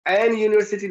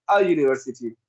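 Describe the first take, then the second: First: एन lifted before university; raised "en" on एन, held up for rejection; rejected form, stressed. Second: अ low and open, falling through university; correct form, settled. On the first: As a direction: mark एन as wrong with contrastive stress. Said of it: "नहीं लाएंगे". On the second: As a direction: answer with a lower-pitched अ. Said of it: "बल्कि क्या लाएंगे". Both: Shown as a demonstration.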